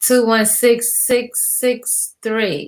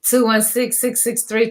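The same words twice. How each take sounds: First: Very slow, digit by digit; slow dictation. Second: Said in the usual way. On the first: Real, not acted. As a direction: spell the number out slowly for note-takers. Repeats phone number for listeners.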